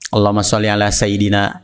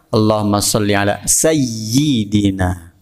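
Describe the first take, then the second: First: The y sound in sayyidina is short, single. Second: The y sound in sayyidina is doubled, held. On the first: The speaker calls it wrong. "Ini salah" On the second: The speaker calls it right. "Ada tasydidnya dan ada harokat kasroh"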